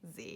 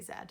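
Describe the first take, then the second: First: The letter is said the American way, zee. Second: The letter is said the English way, zed.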